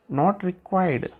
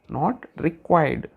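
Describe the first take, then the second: First: Said in the usual way. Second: Not required. said very slowly, stress on not. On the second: Shown as a demonstration.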